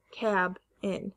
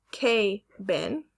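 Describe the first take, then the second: First: "cab in" as CAB, pause, IN; short A split. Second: "cabin" split as KAY-bin; long A split. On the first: Teacher breaking a word into syllables, "cab in" with short a. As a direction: say "cab in" slowly with the short a of cat. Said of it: "The two syllables are cab in". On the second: Teacher showing where a word breaks, "cabin" as kay-bin. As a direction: say "cabin" in two slow parts, kay, then bin. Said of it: "if it was broken up here". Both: Shown as a demonstration.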